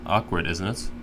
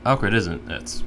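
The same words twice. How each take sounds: First: A pause breaks the phrase after the first word. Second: It flows smoothly with no pause. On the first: The speaker calls it wrong. "You paused in between when you said it" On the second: The speaker calls it right. "I can't even say it wrong because I'm just so used to"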